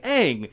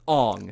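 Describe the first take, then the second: First: The vowel sounds like the one in cat. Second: The vowel sounds like the one in song. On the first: This is how the original show says it. The speaker calls it right. "His name is Aang in the source material, and they say it Aang" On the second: This is how the film adaptation says it. The speaker calls it wrong. "But in this movie, his name is Ong"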